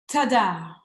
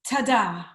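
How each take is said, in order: No difference in how they are said.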